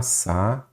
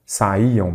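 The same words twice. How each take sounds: First: "sa-i-iam" split into three slow syllables with long gaps. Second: Said in the usual way. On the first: Shown as a demonstration. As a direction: break "sa-i-iam" at each syllable, isolating the i. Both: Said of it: "quando você separa em sílabas".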